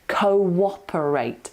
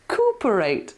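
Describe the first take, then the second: First: A w-like glide links the first two vowels. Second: The first two vowels merge with no glide. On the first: The speaker calls it right. "you've got to put an invisible w in there" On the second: The speaker calls it wrong. "it looks like cooperate, doesn't it? Cooperate, but it's not"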